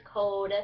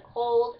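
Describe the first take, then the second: First: "cold" without its L, as "code"; Kentucky code. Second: Said in the usual way. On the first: Shown as a demonstration. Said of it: "it's code". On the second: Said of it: "instead of cold".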